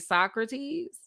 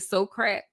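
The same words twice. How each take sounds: First: It uses the general, standard pronunciation. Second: It uses a New Orleans local pronunciation. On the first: "in New Orleans, we don't say Socrates" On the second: "we say Socrates"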